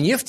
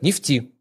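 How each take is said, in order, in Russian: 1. Ударение как в обычной речи. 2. Ударение как в жаргоне нефтяников. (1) "не нефти" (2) "Они говорят нефти"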